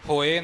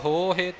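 First: The middle h sound is dropped. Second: The middle h sound is pronounced. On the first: The speaker calls it wrong. "ਹੋਏ ਨਹੀਂ" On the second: The speaker calls it right. "ਦੋਨੋਂ ਹਾਹੇ ਹਨ"

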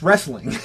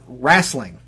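First: The first vowel sounds like an 'e'. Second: The first vowel sounds like an 'a'. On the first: The speaker calls it right. "There is no A in the word wrestling" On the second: The speaker calls it wrong. "this is the one that a few people in my family do"

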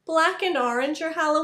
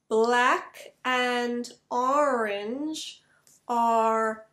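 First: The words are spoken quickly at natural speed. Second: The words are spoken slowly and carefully. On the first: "speeding it up" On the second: "I'll say the sentence three times, slowly"

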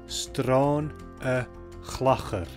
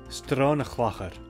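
First: It is said slowly and carefully. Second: It is said at a normal speaking speed. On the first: "and then slowly too" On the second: "I'll pronounce them like I would naturally"

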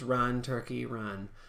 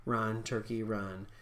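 The two takes are said the same way.

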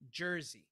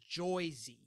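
First: The name is said plainly, without the stereotype. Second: The name is said in a stereotyped accent. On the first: The speaker calls it right. "It's Jersey" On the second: The speaker calls it wrong. "no one here says Joy-Z"

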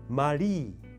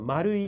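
First: The word ends in one long 'ii' vowel. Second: The word ends in two separate vowels 'u-i'.

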